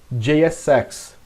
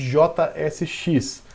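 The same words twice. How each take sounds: First: The letter names have English pronunciation. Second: The letter names have Portuguese pronunciation.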